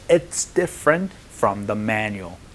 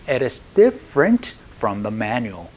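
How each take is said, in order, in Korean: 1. "It is"는 한 음절로 줄여서 발음해요. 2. "It is"는 두 개의 단어로 온전하게 발음해요.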